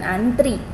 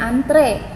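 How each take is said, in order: First: The final vowel is pronounced like 'i'. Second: The final vowel is pronounced like 'e'. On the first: The speaker calls it wrong. "bukan antri" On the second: The speaker calls it right. "seharusnya antre"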